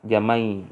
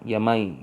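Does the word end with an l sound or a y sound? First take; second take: y sound; y sound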